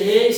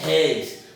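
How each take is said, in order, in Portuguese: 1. O e do ditongo soa fechado. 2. O e do ditongo soa aberto. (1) "se eu dissesse reis, seria fechado" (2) "mas aqui é reis"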